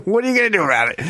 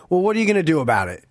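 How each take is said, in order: First: Higher, cocky provoking taunt; mock taunting challenge. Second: Quick offhand challenge; retold taunt. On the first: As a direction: goad him, daring him to act. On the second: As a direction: toss the line out fast and casual. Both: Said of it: "this is the classic line".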